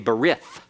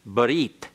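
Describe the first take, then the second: First: The word ends in a th sound. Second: The word ends in a t sound. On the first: "That's an anglicized pronunciation that is incorrect Hebrew" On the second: "the Hebrew word for covenant is barit"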